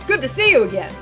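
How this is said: It is said in Mister Holden's put-on voice.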